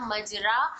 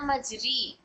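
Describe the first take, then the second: First: The vowel after r is an open a. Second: The vowel after r is a close ee. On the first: "ना मजरा" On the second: "ना मजरी"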